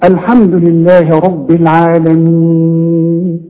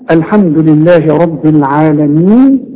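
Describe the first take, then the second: First: The final vowel is held for four counts. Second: The final vowel is held for two counts. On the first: "وأربعة" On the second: "ممكن تقف عليها حركتين"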